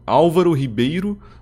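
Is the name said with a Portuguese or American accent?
Portuguese. The name is said with a Portuguese accent.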